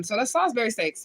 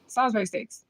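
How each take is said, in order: First: Said in the usual way. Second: New Orleans accent. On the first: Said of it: "That's how y'all say it". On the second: Shown as a demonstration. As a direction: try out a New Orleans accent on Salisbury steaks. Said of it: "my best New Orleans right there".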